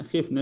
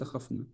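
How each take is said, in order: First: Short i after the kh in خفنا; khifna with i. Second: خفنا said as KHAF-na, short a; short a after the kh in خفنا, softly; khafna, wrong vowel. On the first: Teacher corrects her own error, خفنا as khifna. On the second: Teacher cites the form to avoid, خفنا as khafna. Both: Shown as a demonstration. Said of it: "ليس خفنا".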